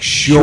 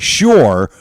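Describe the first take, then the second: First: The final R sound is dropped entirely. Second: The final R sound is clearly pronounced. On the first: "but they say" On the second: "it should be"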